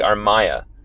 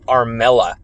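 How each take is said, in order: First: The middle consonant is a Y sound. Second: The middle consonant is an L sound. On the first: The speaker calls it right. "when it's actually Armaya" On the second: The speaker calls it wrong. "people mispronouncing it to Armella"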